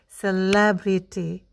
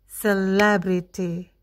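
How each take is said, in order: Both takes have the same delivery.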